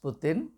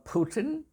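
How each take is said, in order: First: The name is said in a non-American way. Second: The name is said in an American way.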